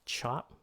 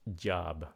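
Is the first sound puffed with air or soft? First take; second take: puffed; soft. First: The first sound is released with a strong puff. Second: The first sound is soft with no puff. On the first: The speaker calls it wrong. "Nếu các bạn phun ra là âm chờ" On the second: The speaker calls it right. "J là âm chờ rất là nhẹ"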